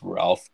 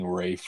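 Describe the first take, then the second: First: The name has an L sound and short vowel. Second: The name has no L and a long vowel. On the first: The speaker calls it wrong. "I don't think it's Ralph though" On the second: The speaker calls it right. "when I was looking at the pronunciation, it was like freaking Rafe"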